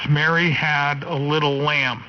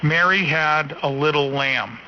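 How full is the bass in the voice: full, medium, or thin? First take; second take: medium; thin. First: The low end is cut off at 100 hertz. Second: The low end is cut off at 200 hertz. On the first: "That's one hundred hertz" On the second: "It's rolled off at two hundred hertz"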